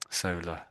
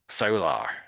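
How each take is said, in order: First: The word ends in a weak vowel without R. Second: The word ends with a clear R sound. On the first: "Brits don't say it that way. We just say solar. It's almost as if it ends just with an A" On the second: "if an American would s- to say this, he would try to pronounce the R"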